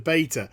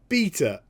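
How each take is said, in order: First: It is said with an American pronunciation. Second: It is said with a British pronunciation. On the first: "as opposed to beta" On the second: "I'm British and I say beta"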